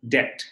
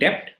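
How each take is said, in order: First: The B is silent. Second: The B is pronounced. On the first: The speaker calls it right. "it is debt" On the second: The speaker calls it wrong. "It's not debt"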